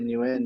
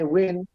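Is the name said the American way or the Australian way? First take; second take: Australian; American. First: The name is said the Australian way. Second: The name is said the American way. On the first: The speaker grew up with this form in Australia. "it's just what everyone has been saying it in Australia" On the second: People from the States use this form. "I get mixed people saying win. Um, so I know they're from the States"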